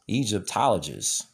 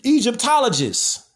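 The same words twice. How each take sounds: First: Said in the usual way. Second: Mock pompous expert. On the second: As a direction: announce "Egyptologist." like a smug expert, pitched up. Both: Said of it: "Where they be like".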